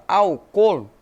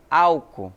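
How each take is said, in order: First: Álcool said Spanish-style as al-COL, COL hit harder; álcool with a loud, stressed second syllable, COL; stress on final syllable. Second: Álcool said Portuguese-style as ÁL-cool, AL stressed; álcool as AL-co, second syllable light; stress on first syllable. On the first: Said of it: "é o col". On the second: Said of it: "o tônico pra nós é o al". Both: Shown as a demonstration.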